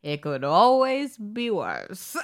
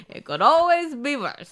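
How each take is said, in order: First: Slow, laughing, lightly voiced old man; a hint of an old storyteller. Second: Higher, louder imitation of the tape; mock the old narrator with gusto; hammed-up old storyteller; old man voice. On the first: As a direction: imitate the tape narrator, slowly.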